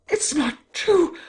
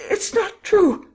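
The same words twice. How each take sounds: First: "It's not true!" high and slow, rising on "true" in shock; high disbelieving cry. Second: "It's not true!" much higher and louder, falling hard on "true"; scream. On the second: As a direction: scream "true" out high and loud, dropping at the end. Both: A narrator's reading. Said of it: "she screamed".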